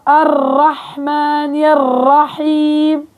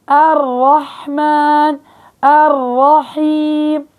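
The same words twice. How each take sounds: First: الرحمن الرحيم very slow with the ra repeated in a trill. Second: الرحمن الرحيم slow, the still ra held briefly, no trill; correct ra. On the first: Retold or imitated. Teacher imitating sisters who trill the ra. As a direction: roll the ra several times. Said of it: "بيكرروا الراء". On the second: Shown as a demonstration. Teacher showing the correct way after mistakes. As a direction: give the ra a short hold, then move on. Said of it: "بحاول أعطي زمن بسيط للراء".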